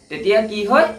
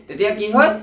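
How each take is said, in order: Both takes have the same delivery.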